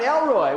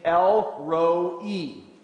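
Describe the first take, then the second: First: The last part is one gliding syllable, 'roy'. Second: The last part splits into two syllables, 'ro-ee'. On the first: The speaker calls it wrong. "it's not Elroy" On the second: The speaker calls it right. "That's the way you say this thing"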